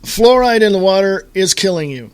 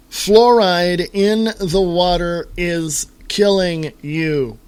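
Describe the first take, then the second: First: Emphatic warning. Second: Slow emphatic. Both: Shown as a demonstration. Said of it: "any more poignant or direct".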